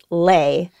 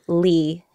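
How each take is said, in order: First: The vowel sounds like 'ay'. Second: The vowel sounds like 'ee'. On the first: This is the traditional Vietnamese pronunciation. "the traditional pronunciation of the last name [name] mm-hmm. is Lay" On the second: This is the American way of saying the name. "I'm used to calling myself Lee"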